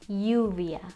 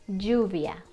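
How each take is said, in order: First: The ll is said like the y in yo. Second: The ll is said the Mexican way. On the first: "One of them is E, for example, yo" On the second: "I taught you the way that Mexicans say it"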